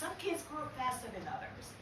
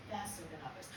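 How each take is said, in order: First: Said in the usual way. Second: Softer murmured echo; quiet throwaway repeat; quiet aside. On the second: Shown as a demonstration. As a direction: drop it low and soft as an aside.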